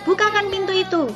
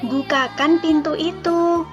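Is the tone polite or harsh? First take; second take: harsh; polite. First: It is said in a sharp, snapping tone. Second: It is said in a gentle, polite tone. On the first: The request is barked as a rude command. The speaker calls it wrong. "Jangan sambil membentak" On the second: The request is made courteously. The speaker calls it right. "harus dengan sopan"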